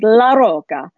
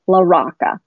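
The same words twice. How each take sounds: First: The name is said with an Italian pronunciation. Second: The name is said with an American pronunciation. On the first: This is how it would be said in Italy. "if you were in Italy, I'm sure you would pronounce it LaRocca" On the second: This is how the family says it. "his family is from Brooklyn. They say LaRocca, like a rock"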